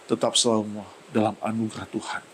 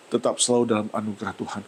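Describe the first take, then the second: First: Drawn out, leaning on tetap; slow emphatic repeat. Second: Fast repeat of "tetap selalu dalam anugerah Tuhan"; quick restatement. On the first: Pastor stressing God's grace to the congregation, slow and emphatic. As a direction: stretch "tetap selalu" slowly, pressing each word. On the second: Pastor repeating the line to the congregation, fast. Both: Shown as a demonstration.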